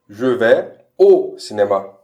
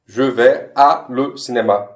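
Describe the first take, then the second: First: Said in the usual way. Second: "à le" said as two separate words, slowly; wrong split form. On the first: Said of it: "corretamente seria". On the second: Shown as a demonstration. Teacher showing the uncontracted French mistake, slow. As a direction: spell out "à le" apart. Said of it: "a junção do a com le vira o".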